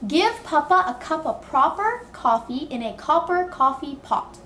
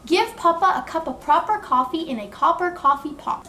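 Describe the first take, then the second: First: The sentence is said at a slower pace. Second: The sentence is said at a faster pace.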